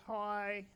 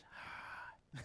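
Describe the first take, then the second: First: Louder, voiced hello; eager greeting. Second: Soft, whispered exhale of a greeting; breathy reply. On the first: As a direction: greet him out loud, hopefully. Woman greets man in retold skit. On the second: Retold or imitated. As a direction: let it out as voiceless breath, acting his reply. Man's wordless-sounding reply in skit.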